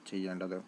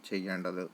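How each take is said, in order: Both takes have the same delivery.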